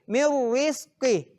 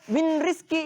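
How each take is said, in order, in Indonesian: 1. Bunyi n melebur sepenuhnya menjadi r ganda. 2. Bunyi n diucapkan sebelum r. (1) "cara bacanya adalah mirrizqi" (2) "tidak boleh dibaca min rizki, itu salah"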